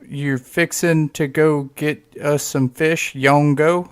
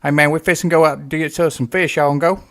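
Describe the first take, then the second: First: Slow, careful echo of the Southern words; slow puzzled repeat. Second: Put-on Southern accent. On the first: Retold or imitated. Outsider repeating the fishing invite, slow and puzzled. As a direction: repeat it back slowly, trying to decode it. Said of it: "And I'm like". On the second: Relatives inviting him fishing, in a Southern accent. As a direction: rattle it off like a Kentucky fisherman. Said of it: "people talking like this".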